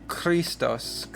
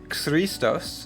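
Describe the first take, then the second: First: The word begins with a throaty kh sound. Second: The word begins with an x-like ks sound. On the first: The speaker calls it right. "it's pronounced like the Hebrew chet or kaf, and so we have Kh" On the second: The speaker calls it wrong. "this looks like an X, so you might think it's Christos"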